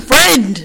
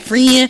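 First: "friend" said clearly with the final d; correct pronunciation. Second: "Friend" mispronounced as "freen", final d dropped; Jocelyn. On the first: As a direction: correct someone with a full "friend", d sounded. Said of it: "why you saying all the other words and fucking up on friend". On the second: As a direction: say "Friend" like "free-in", losing the d. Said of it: "she couldn't say friend to save her life". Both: Retold or imitated.

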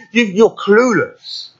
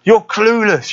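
First: Higher, drawn-out scornful taunt; slow, lifted jeer at the giant; a touch of a defiant boy; David taunting. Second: Higher, quicker repeat of the jeer; lifted, defiant taunt; David taunting. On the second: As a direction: snap it back up high, scornful. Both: Retold or imitated. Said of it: "David is looking back at these events and saying".

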